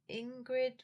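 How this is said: The name is said with an American English accent. "would be the, you know, American English pronunciation"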